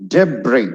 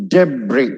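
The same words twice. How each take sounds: The two takes are said the same way.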